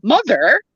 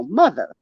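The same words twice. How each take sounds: First: "Mother" with a full final r, high rising question; mock standard pronunciation. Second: "mother" with the final r dropped, "mutha"; New Jersey pronunciation. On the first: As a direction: ask "Mother" incredulously, sounding the r. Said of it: "who says mother?". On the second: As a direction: land "mother" falling, ending in an open uh. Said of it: "No, mother". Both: Shown as a demonstration.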